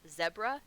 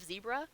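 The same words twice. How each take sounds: First: It is said the way other countries say it. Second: It is said the way Americans say it. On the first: The speaker calls it right. "every other country in the world says zebra" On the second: The speaker calls it wrong. "in America we're fucking stupid"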